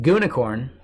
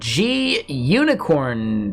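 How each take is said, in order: First: The G blends into unicorn as one 'goo' sound. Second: The letter G is spoken separately before unicorn.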